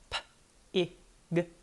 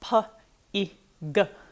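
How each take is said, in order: First: Each sound is short with no added vowel. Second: Each sound ends with an added uh vowel. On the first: The speaker calls it right. "exactly as they would be heard in the word" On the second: The speaker calls it wrong. "exaggerate the sound and put an uh on the end"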